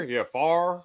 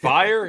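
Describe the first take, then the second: First: "far" for fire, one drawled syllable, high; North Carolina accent. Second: Said in the usual way. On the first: Retold or imitated. Imitating North Carolina workmate's answer, North Carolina accent. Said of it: "the guys from, uh, North Carolina". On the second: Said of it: "What? Fire?".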